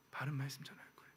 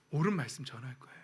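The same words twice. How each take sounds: First: 바른 말씀 전할 거예요 in a fast, unvoiced whisper; whispered vow. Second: Said in the usual way. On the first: Real, not acted. Pastor quietly vowing to congregation, whispered. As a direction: breathe the 바른 as a quiet promise.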